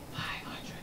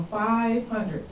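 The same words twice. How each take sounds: First: Hushed, whispered FIVE HUNDRED; whispered repeat. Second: Said in the usual way. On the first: Real, not acted. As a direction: drop to a whisper on the figure. Figure repeated for effect.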